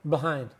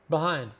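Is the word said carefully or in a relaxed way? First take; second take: relaxed; relaxed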